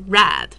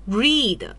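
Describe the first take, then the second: First: The vowel is a short e sound. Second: The vowel is a long ee sound. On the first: This is the perfect-tense form of the verb. "它的一个完成时叫做read" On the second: This is the plain form of the verb. "这里的这个读是用read"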